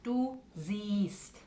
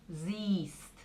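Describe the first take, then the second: First: "Du siehst" softly with a long ee; long vowel again. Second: "siehst" with a long ee; long German vowel. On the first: Teacher repeating the long vowel. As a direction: hold the ee in "siehst". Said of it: "Esas dos alargan la E". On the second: Teacher stressing the long vowel for students. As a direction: stretch the ee in "siehst". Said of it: "Ese vocal es muy largo". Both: Shown as a demonstration.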